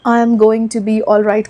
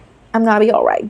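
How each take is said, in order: First: Going to is said in full, unhurried. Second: Going to is reduced to gonna, said fast.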